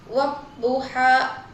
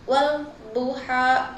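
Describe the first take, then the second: First: The L is silent, merging into a doubled D. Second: The L is pronounced clearly before the D. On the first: The speaker calls it right. "sehingga dibaca wadduha" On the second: The speaker calls it wrong. "bukan wal duha kayak gitu"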